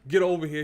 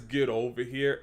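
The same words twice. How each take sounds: First: Louder, higher-pitched catchphrase with some punch; Scorpion. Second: Understated, limp catchphrase; lame delivery. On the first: YouTuber quotes how the fighter should sound, forceful. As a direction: put some weight behind the command. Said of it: "he has some bass in his voice". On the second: YouTuber quotes the game actor's line he dislikes, lame. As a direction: quote it with little force. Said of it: "it kinda sounds lame". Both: Retold or imitated.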